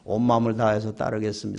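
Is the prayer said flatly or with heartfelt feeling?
flatly. It is said flatly, without feeling.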